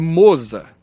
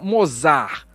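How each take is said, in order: First: The first vowel is a closed o. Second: The first vowel is an open o. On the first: The speaker calls it right. "é Mozart, com acento circunflexo, circunflexo no O" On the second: The speaker calls it wrong. "Não Mozart"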